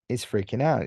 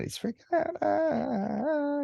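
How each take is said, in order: First: Said in the usual way. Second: Much higher, shrill panicked squeal; high frightened child's shriek; freaking out. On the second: Acted. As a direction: squeak it out like a terrified kid. Kid terrified of monster.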